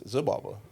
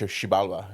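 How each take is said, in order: First: The word begins with a z sound. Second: The word begins with a sh sound. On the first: This is how Americans say it. "if you're American, it's" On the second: This is how Maya speakers say it. "the Mayan says"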